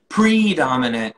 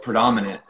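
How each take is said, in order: First: Predominant sung with stress on the first syllable, slow and louder; wrong syllable stressed. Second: Said in the usual way. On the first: Shown as a demonstration. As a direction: hit the pre- of predominant like an off melody. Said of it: "the predominant syllable". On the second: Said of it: "the melody was, like, predominant".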